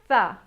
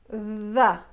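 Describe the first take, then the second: First: The th sound is only breathy air. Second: The th sound buzzes with voice. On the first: "The unvoiced the sound" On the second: "The voiced the sound will actually vibrate your tongue"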